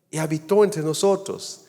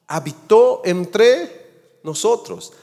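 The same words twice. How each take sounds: First: Said in the usual way. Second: Slow and loud, raised high on habitó entre nosotros; emphatic proclamation. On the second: Acted. Preacher's climax quoting John. (proclamado lento y fuerte, habitó entre nosotros)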